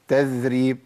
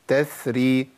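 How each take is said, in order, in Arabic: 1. يُضغط صوت th بقوة، فيقترب من dh. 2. يُقطع صوت th دون خروج هواء. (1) "اخلي لساني يتمكن من اطراف الثنايا بشكل قوي تبقى قريبه من الذال" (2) "ما تجريش يا شيخ، ما ينفعش، لازم امشي الصوت"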